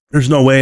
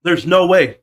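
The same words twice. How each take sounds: First: Said in the usual way. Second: Higher, disbelieving "There's no way"; incredulous. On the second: Real, not acted. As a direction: say it like you can't believe it. Repeats disbelief, first take.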